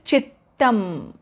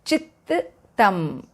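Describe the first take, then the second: First: The middle t sound is held and doubled. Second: The same.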